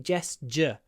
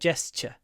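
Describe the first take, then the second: First: The middle 'tu' sounds voiced, like 'j'. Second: The middle 'tu' sounds voiceless, like 'ch'. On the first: "the tu is also a j" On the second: "the T U R E would usually be a ch"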